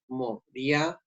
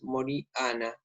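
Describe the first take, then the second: First: The i and a blend into one syllable. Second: The i and a are said as separate syllables. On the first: "suena como diptongo" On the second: "tenemos que separar la I de la A"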